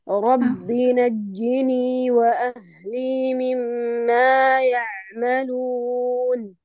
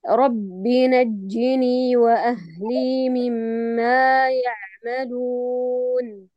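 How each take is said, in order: First: The voice is tight and pressed in the throat. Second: The voice is loose and relaxed in the throat. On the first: The speaker calls it wrong. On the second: The speaker calls it right.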